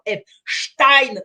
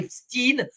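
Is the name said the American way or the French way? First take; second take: French; American. First: The name ends with the French 'stein' sound. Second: The name ends with an American-style 'steen' sound. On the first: The speaker calls it right. "On a toujours dit Stein en français" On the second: The speaker calls it wrong. "et pas Epstein"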